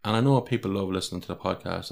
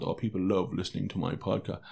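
First: Said in the usual way. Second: Softer, offhand, as if it were nothing; nonchalant. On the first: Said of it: "even for me to say that sounds so nonchalant". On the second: Shown as a demonstration. Podcaster mock-quoting his own boast to listeners, nonchalant and softer. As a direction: toss it off casually like a smug boast. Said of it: "sounds so nonchalant".

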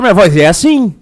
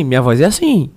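First: "minha voz é assim" pushed louder, with a livelier tune; storytelling intonation. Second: Said in the usual way. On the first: Shown as a demonstration. Showing the co-hosts how the voice changes in a story, louder storytelling intonation. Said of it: "muda por causa da entonação". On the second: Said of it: "Ah, faz a voz".

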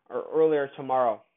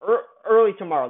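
First: Said in the usual way. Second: Quick correction stressing "early"; correcting himself. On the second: Real, not acted. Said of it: "that's what I'm trying to say".

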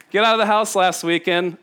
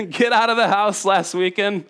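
No difference in how they are said.

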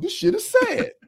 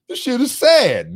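First: Much higher, hammed-up weepy squeak; squeaky mock-weeping replay; exaggerated mock sob. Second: Higher, half-joking tearful whine; a touch of mock weepiness; mock sad whine. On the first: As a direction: overplay the crying for laughs. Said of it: "That was the words out of my mouth". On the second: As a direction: play up your own sadness, lightly. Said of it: "I was like".

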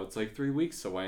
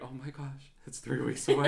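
First: Said in the usual way. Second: Higher, laughing dismay; hushed gasp building to louder, laughing panic; mock panic. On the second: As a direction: play up the panic at the deadline. Acted panic at nearing date.

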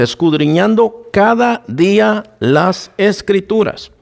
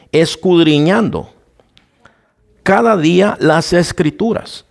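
First: "escudriñando cada día las escrituras" said slowly, leaning on "cada"; slow, weighty emphasis. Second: Said in the usual way. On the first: Shown as a demonstration. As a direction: drive home "cada día" slowly and deliberately. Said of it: "Escuche esto, hermano, que es muy importante". (lento y enfático, recalcando "cada día") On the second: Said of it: "que es muy importante".

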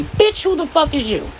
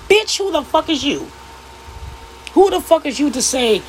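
First: Indignant. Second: Sharp indignant challenge. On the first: Woman calling out podcast men again, scornful. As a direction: repeat the challenge with scorn. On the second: Woman calling out podcast men, indignant. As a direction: demand who they think they are. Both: Real, not acted. Angry rant at critics.

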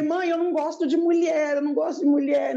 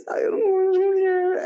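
First: Higher-pitched, every word intelligible; articulated confession. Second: High-pitched, unintelligible mumble; mumbled confession. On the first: Finally telling mother the secret, clearly articulated. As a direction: say it out plainly in a raised pitch. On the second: Confessing to mother but dodging the words, mumbled. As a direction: squeak it out with the words smeared together. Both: Retold or imitated. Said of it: "Fala, mas gesticula".

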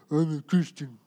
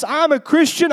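First: Low, soft, droopy drone; mock-miserable, utterly joyless. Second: High-pitched, exuberant proclamation; pumped-up and proud, raised voice; triumphant declaration. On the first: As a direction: say it with your jaw on the floor. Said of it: "need a forklift to pull their bottom jaw up". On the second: Acted. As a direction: declare your faith like a champion. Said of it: "when we walk into church".

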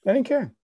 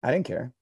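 First: "I didn't care" jumps much higher on the repeat; emphatic repeat. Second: Said in the usual way. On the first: Real, not acted. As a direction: squeal it out the second time.

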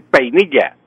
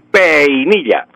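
First: Said in the usual way. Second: "peinilla" drawn out as pe-i-ni-lla; diphthong split into hiatus. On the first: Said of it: "tengo que decir peinilla". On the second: Shown as a demonstration. Professor repeats the forbidden peinilla, split pe-i-ni-lla. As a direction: separate e from i in "peinilla". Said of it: "no puedo decir peinilla".

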